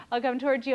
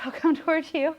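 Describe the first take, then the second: First: Said in the usual way. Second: Laughing. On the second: Real, not acted. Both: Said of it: "I know it's funny".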